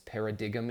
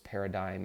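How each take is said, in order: First: The g in the middle is sounded. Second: The g in the middle is silent. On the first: The speaker calls it wrong. "I used to uh, mispronounce words that I had never heard pronounced before" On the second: The speaker calls it right. "the word is paradigm and there's a G in there"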